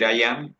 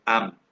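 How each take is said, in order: First: "I am" said as two words; full form. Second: "am" as one syllable for I'm; contraction. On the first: Teacher contrasts forms for students, "I am" in full as two words. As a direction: give "I am" both vowels, uncontracted. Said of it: "una cosa es decir I am". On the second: Teacher contrasts forms for students, "am" as one contracted syllable. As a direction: squeeze I and am into a single "am". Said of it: "otra cosa es decir la contracción". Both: Shown as a demonstration.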